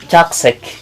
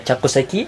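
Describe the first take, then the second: First: The final vowel i is dropped. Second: The final vowel i is pronounced. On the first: "atau chakusek biasanya" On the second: "Bisa dibaca chakuseki"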